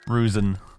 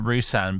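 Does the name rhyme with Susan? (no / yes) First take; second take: yes; no. First: The name rhymes with Susan. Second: The name does not rhyme with Susan. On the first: "like Susan" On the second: "I've been pronouncing it Rusan"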